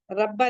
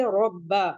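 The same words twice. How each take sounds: First: रब्बा with a light, thin र as the wrong way; रब्बा said with a light, unheavy र; wrong light reading. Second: रब्बा with a heavy, full र and a doubled ब; रब्बा with a thick र and a firm, doubled ब; रब्बा read heavily, as the correct form. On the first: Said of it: "रब्बा नहीं पढ़ेंगे". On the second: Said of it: "सख्ती से पढ़ेंगे". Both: Shown as a demonstration.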